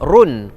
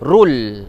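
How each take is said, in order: First: The syllable ends with an n sound. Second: The syllable ends with an l sound. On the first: The speaker calls it wrong. "kalau ikutkan ra baridu di depan, run" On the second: The speaker calls it right. "Tapi bila mana tanwin jumpa dengan huruf lam, dibaca khairul"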